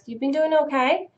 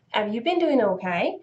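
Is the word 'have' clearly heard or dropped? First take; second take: dropped; heard. First: The word have is dropped, said fast. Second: The word have is clearly pronounced.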